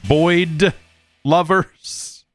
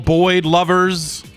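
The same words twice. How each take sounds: First: The final d of the name is clearly pronounced. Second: The final d of the name is barely heard. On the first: The speaker calls it right. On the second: The speaker calls it wrong.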